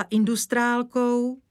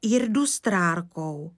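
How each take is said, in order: First: "industrálkou" with n and l; cleanly pronounced "industrálkou"; correct pronunciation. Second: Slow "irdustrárkou" with r's for n and l; garbled long word "irdustrárkou"; child's mispronunciation. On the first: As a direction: say "industrálkou" properly, n before d, l before k. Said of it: "že irdustrárkou". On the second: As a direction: stumble slowly through "irdustrárkou". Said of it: "čím byla vzácná paní". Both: Acted.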